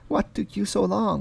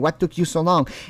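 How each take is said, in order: First: It is said softly, sounding charming. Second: It is said bluntly, without softness.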